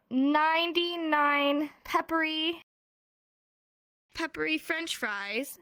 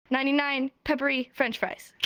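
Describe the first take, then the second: First: Drawn-out, word-by-word demonstration; slow tongue twister. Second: Brisk run-through in one go; quick tongue twister. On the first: Teacher demonstrates a tongue twister to students, slowly and carefully. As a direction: stretch each word, pausing to show it. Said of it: "a sign language tongue twister". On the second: Teacher shows students the finished tongue twister, rattled off briskly. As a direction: rattle off the whole phrase as a show-off. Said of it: "Watch this". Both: Shown as a demonstration.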